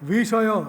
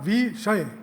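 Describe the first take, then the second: First: The final sounds split into separate short syllables. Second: The final sounds join into one long syllable. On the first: The speaker calls it wrong. "એ પ્રમાણે લલ તરીકે કદી પ્રયોજી શકાય નહીં" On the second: The speaker calls it right. "એ રીતે સ્થપાયેલા બે બૃહદ અક્ષરો લગા તરીકે"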